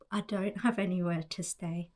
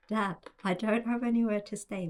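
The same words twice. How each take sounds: First: Said in the usual way. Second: Louder, higher, faster, stressing "anywhere"; exasperated. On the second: Retold or imitated. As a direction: raise your voice, fed up with dad. Repeats it to dad, exasperated.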